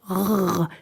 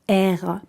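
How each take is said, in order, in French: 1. La lettre se dit par son son seul. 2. La lettre se dit par son nom dans l'alphabet. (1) "c'est R" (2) "c'est pas R"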